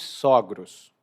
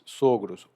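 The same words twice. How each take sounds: First: The stressed O is open. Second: The stressed O is closed. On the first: It refers to a couple, the in-law parents. "assim com um O aberto" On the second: It refers only to the men. "Então é um O mais fechado"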